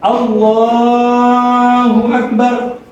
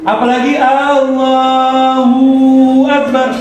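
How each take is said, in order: First: The syllable lah is drawn out long. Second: The syllable hu is drawn out long. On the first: The speaker calls it right. "Kalau mau dipanjangin lam, lamnya boleh" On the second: The speaker calls it wrong. "Hu-nya dipanjangin tidak boleh"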